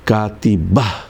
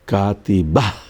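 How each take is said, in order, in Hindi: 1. यह शब्द साँस वाली 'h' की आवाज़ पर खत्म होता है। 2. यह शब्द साँस वाली 'h' की आवाज़ पर खत्म होता है।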